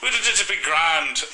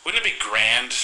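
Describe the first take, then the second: First: High, drawn-out attempt at a British accent; exaggerated British accent. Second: Put-on a touch of a British accent, higher. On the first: Shown as a demonstration. Showing co-host his British accent, slow and hammed-up. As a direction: ham up a bad British accent. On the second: Telling himself his shelving idea, lightly British accent. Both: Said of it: "I'm pretty sure I had a British accent".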